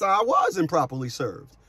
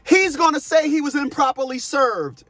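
First: Said in the usual way. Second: Higher-pitched mimicry of the ex in court; child's mom quoted. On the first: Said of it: "And yes". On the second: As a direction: retell her claim in a raised pitch. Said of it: "my child's mom came in court and said".

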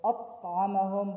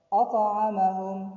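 First: أطعمهم with a plain light t instead of emphatic ṭ; أطعمهم with the ṭ flattened to plain t; wrong way. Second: أطعمهم with a heavy emphatic ṭ; correct way. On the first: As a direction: say the t thin and quick. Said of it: "Not أطعمهم". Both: Shown as a demonstration.

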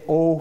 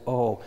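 First: Said in the usual way. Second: Lower, slackened "O" toward the middle of the mouth; lax, centralized "O", as in sad speech; centralized vowel. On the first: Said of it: "you're more likely to say it as O". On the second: Shown as a demonstration. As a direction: say "O" with chin and tongue more central. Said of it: "That is, you centralize".

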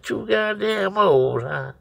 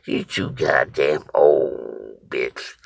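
First: High, drawn-out incredulous echo; retold indignant yell. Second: Slow, drawn-out put-down at normal pitch; retold dismissal. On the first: Storyteller yells back at the boy, indignant high echo. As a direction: throw the insult back way up high. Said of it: "I yelled at the little boy straight". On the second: Boy dismisses the storyteller as too old, slow put-down. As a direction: imitate the boy's unhurried insult. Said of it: "he just looked at me and said".

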